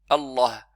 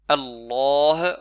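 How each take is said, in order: First: The vowel after the L is kept short. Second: The vowel after the L is drawn out long. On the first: The speaker calls it wrong. "on ne prononce pas Allah, Allah. C'est une erreur" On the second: The speaker calls it right. "Allah avec un mad"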